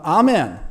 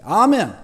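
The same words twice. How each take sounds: First: Said in the usual way. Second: Amen shouted out loud; ten times stronger amen. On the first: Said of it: "열 배 세게". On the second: Shown as a demonstration. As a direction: belt the amen with full force. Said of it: "열 배 세게, 이거보다 열 배 세게". (열 배 세게 외치는 아멘)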